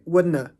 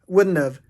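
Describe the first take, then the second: First: No v sound is heard at the end. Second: A v sound is heard at the end. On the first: "Quitando la V" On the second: "usamos la siguiente pronunciación"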